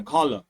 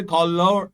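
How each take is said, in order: First: "Collar" said the American way, ending in a weak uh; American pronunciation. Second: "color" drawn out with a full second syllable, col-lour; British pronunciation. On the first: Teacher showing students the American form, "Collar" with a weak final uh. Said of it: "അവരുടെ pronunciation തന്നെ അങ്ങനെയാണ്". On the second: Teacher contrasting British with American, "color" given a full -lour ending. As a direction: say "color" slowly as the British form, sounding out -our. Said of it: "British accent പറയുന്നത്". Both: Shown as a demonstration.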